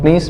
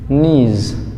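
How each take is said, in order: First: The word ends with an s sound. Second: The word ends with a z sound. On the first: The speaker calls it wrong. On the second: The speaker calls it right.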